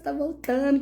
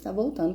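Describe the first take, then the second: First: It is said in a happy, excited tone. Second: It is said in an alarmed, doom-laden tone. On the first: Something wonderful is about to happen. "elas já estão felizonas" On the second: The end of the world is coming. "como se fosse um tom realmente apocalíptico"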